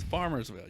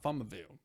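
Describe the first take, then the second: First: It is said with an s before ville. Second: It is said without an s before ville. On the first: The speaker calls it right. "It's Farmersville" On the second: The speaker calls it wrong. "It's not Farmerville"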